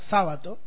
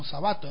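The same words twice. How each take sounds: First: The stress is on the first syllable. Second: The stress is on the second syllable. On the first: The speaker calls it wrong. "ponerle la tilde de la esdrújula" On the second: The speaker calls it right. "en grave"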